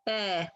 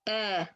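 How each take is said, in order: Both takes have the same delivery.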